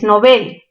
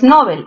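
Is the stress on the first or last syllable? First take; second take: last; first. First: The stress is on the last syllable. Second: The stress is on the first syllable. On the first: The speaker calls it right. "¿mayor fuerza dónde? En bel" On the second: The speaker calls it wrong. "No es"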